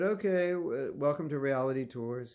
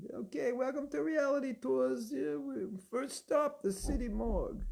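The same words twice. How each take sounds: First: Said in the usual way. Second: Put-on high, brash New York tour guide accent, slowed on the first stop. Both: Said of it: "with a New York accent".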